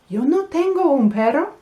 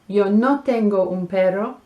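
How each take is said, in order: First: The voice rises at the end like a question. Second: The voice falls at the end like a statement. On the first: It is a question. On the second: It is a statement.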